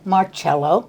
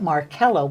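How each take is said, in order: First: The C is said as a ch sound. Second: The C is said as a k sound. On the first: The name is spelled without an H. "M A R C E L O, is Marcello" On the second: The name is spelled with an H. "Marcello has the H in it"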